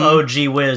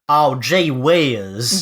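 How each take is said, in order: First: The words are said plainly, without a drawl. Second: Each word is stretched in a syrupy country drawl. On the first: The speaker calls it wrong. "instead of" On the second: The speaker calls it right. "Every every word has like some syrup in it"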